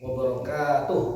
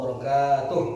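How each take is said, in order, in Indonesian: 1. Suku kata ka dibaca panjang. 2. Suku kata ka dibaca panjang.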